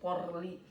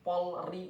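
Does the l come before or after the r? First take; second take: after; before. First: The r sound comes before the l. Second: The l sound comes before the r. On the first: The speaker calls it wrong. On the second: The speaker calls it right.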